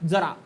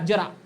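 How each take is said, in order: First: The first consonant has no y-like palatal quality. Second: The first consonant has a y-like palatal quality. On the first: It means a little. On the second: It means old age.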